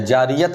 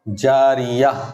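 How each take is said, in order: First: The word ends in -at. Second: The word ends in a long -a. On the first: The speaker calls it wrong. "या जारियत नहीं" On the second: The speaker calls it right.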